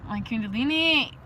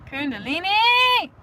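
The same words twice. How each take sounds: First: Said in the usual way. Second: High, loud, slower rapturous shout; drawn-out blissful exclamation of the word; ecstatic cry. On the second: Shown as a demonstration. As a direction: call it out in spiritual ecstasy. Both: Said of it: "So ecstatic".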